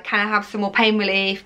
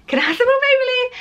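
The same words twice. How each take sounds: First: Said in the usual way. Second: Very high, fast, squealed plea; desperate mock plea. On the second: Mother imitating her last plea to hospital staff, desperate squeal. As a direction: exaggerate a frantic begging at top pitch. Last of repeated escalating pleas.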